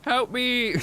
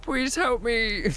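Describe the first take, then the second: First: High-pitched pretend plea for help; mock cry for help. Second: High, slow pretend begging for help; slow drawn-out mock plea. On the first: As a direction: yelp it like a trapped victim. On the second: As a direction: stretch out the plea, hamming it up. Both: Mock trapped, calling for rescue.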